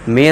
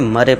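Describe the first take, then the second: First: The vowel sounds like 'air'. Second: The vowel sounds like a short 'a'. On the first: The speaker calls it right. "इसका तो उच्चारण देखिए क्या होगा, मेयर होगा" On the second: The speaker calls it wrong. "लेकिन वो क्या पढ़ेंगे, मरे पढ़ेंगे"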